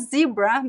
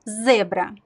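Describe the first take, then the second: First: The first vowel sounds like 'ee'. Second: The first vowel sounds like 'eh'. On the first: The speaker calls it wrong. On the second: The speaker calls it right.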